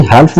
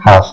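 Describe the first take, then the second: First: हाल्फ with the L sounded; wrong pronunciation. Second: हाफ with a silent L; correct pronunciation. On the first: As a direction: say हाल्फ with a clear L before F. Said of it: "नहीं पढ़ते". (हाल्फ में ल साफ़ बोलें) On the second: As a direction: say हाफ with no L sound. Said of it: "पढ़ते क्या है". (हाफ बिना ल की आवाज़ के) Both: Shown as a demonstration.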